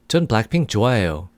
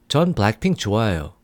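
The two takes are said the same way.

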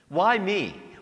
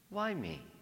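First: It sounds irritated and frustrated. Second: It sounds full of wonder and gratitude. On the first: Life feels unfair and burdensome. The speaker calls it wrong. "we know the mantra that's easily our own" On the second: One feels grateful and open to what is asked. The speaker calls it right. "we would say it with wonder, with gratitude"

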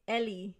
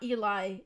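First: The name is pronounced the Spanish way. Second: The name is pronounced the American English way. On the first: The speaker calls it right. "It is Ellie. It's pronounced in Spanish" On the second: The speaker calls it wrong. "No, it is not Eli"

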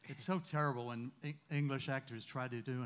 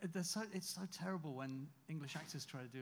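First: It is said in an American accent. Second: It is said in a British accent.

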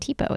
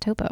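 First: The first vowel sounds like ee. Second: The first vowel sounds like oh. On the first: The speaker calls it wrong. "it's not Tipo" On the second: The speaker calls it right. "it's Topo"

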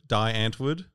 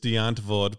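First: The name is said as English spelling suggests. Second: The name is said with an Afrikaans pronunciation. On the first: This is how it looks when read in English. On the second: This is how people from the band's country say it.

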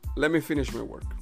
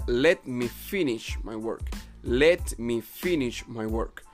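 First: The words let me are run together, reduced. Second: The words let me are said fully and separately. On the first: "en una contracción sería" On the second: "La pronunciación original sería"

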